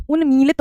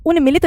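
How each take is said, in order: First: उन्मीलित with a long मी, said as the right form; correct form. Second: उन्मिलित with a short मि, said as the wrong form; wrong spelling said. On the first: Teacher gives students the correct form, long ii. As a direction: stretch the मी in उन्मीलित. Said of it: "होता है". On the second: Teacher shows the class the wrong form, short i. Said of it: "नहीं होता". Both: Shown as a demonstration.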